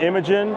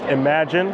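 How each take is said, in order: First: It sounds like the name Imogen. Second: It sounds like the word imagine. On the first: The speaker calls it wrong. "not Imogen" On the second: The speaker calls it right. "it's pronounced Imagine"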